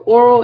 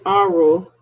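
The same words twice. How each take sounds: First: "oral" said first with a rounded "aw". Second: "oral" said as "AH-rol"; aural with an A. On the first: Teacher contrasting two terms, oral with an O. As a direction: begin "oral" on a clear O sound. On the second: Teacher contrasting two terms, aural with an A. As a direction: begin "oral" on an open "ah". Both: Shown as a demonstration. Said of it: "also pronounced different".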